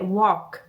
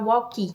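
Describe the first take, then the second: First: The word ends cleanly on the final consonant. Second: The word ends with an added 'ee' vowel. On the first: The speaker calls it right. "lembrar que é walk" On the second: The speaker calls it wrong. "Normalmente a gente fala walkie"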